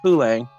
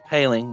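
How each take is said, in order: First: The name is said the Montreal way. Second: The name is said the Pittsburgh way. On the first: This is how the name was said in Montreal. "In Montreal, he was Poulang" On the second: This is how the name is said in Pittsburgh. "And in Pittsburgh, he's Paling"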